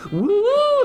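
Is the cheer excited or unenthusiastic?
excited. It is an excited, enthusiastic cheer.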